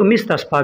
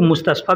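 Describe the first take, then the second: First: The first vowel is an 'i' sound. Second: The first vowel is an 'u' sound. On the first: "कितने लोग मिस्तशफ़ा भी बोलते हैं" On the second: "कितने लोग मुस्तशफ़ा भी बोलते हैं"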